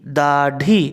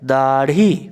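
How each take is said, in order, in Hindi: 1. बीच का व्यंजन एक पूरा मूर्धन्य स्टॉप है। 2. बीच का व्यंजन एक तेज़ मूर्धन्य फ़्लैप है। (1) "अगर नुक्ता ना रहे तो इसका उच्चारण अगर हम करेंगे तो होगा दाढ़ी" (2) "नुक्ता बैठाने के बाद इसका उच्चारण होता है दाढ़ी"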